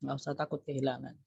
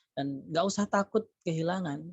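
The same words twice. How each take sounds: First: "nggak usah takut kehilangan" said again much softer, as an echo; softer repeat. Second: Said in the usual way. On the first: Shown as a demonstration. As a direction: repeat it softly and let it sink in. Repeating advice, more softly. (ulangi dengan suara lebih pelan)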